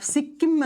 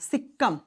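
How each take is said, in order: First: It sounds like the place name Sikkim. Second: It ends in a short 'am' sound. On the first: The speaker calls it wrong. "अब सिक्किम मत कर देना" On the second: The speaker calls it right.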